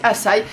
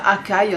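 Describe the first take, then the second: First: The middle consonant is an s sound. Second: The middle consonant is a k sound. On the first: The speaker calls it right. "mais ça se dit Açaï" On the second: The speaker calls it wrong. "moi j'aurais même dit ça Akai"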